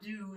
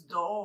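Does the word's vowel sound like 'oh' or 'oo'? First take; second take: oo; oh. First: The word ends in an 'oo' vowel. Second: The word ends in an 'oh' vowel. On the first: The speaker calls it wrong. "I'm sure that's not do" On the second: The speaker calls it right. "It's dough or something"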